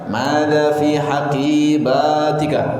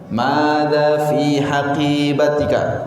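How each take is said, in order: First: The long vowels are cut short. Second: The long vowels are held at full length. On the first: The speaker calls it wrong. "Tidak boleh membaca" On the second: The speaker calls it right. "tetap harus panjang pendeknya diperhatikan"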